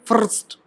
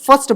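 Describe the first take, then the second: First: The r after the vowel is clearly pronounced. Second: The r after the vowel is not pronounced. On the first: "American वाले से क्या बोलेंगे" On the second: "हम क्या बोलते हैं, फर्स्ट बोलते हैं"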